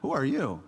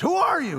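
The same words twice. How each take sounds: First: It is said in a calm, casual way. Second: It is said in a startled, alarmed way. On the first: The speaker calls it wrong. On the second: The speaker calls it right. "I think that's the tone of that passage"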